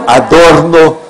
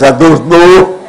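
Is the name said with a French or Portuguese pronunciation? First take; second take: Portuguese; French. First: The name is said with a plain Portuguese pronunciation. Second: The name is said with a French pronunciation.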